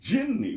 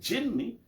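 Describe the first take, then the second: First: The word begins with a hard g sound. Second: The word begins with a soft j sound.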